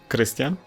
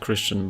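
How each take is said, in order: First: The name is said with a Polish pronunciation. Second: The name is said with an English pronunciation. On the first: The speaker calls it right. "It's a Polish pronunciation" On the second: The speaker calls it wrong.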